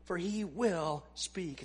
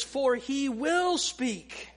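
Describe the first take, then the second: First: "For he will speak" spoken slowly and softly, with weight on "he"; emphatic, hushed. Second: "For he will speak" slowed right down, with "will" stressed; emphatic reading. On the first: Preacher rereading the verse to stress it, hushed and emphatic. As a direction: drop the voice and press on "he" in "For he will speak". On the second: Preacher reading the text aloud to the congregation, slow and emphatic. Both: Shown as a demonstration. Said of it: "It's emphatic".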